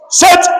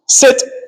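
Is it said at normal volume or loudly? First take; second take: loudly; normal. First: It is said very loudly. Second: It is said at normal volume.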